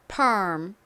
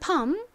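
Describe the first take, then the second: First: It is said with American English pronunciation. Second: It is said with Korean-style pronunciation. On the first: "미국식 원어 발음으로는 펄을 발음하다가 입 모양을 음 요렇게 바꿔주시면 되죠" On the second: "발음은 한국식으로는 펌"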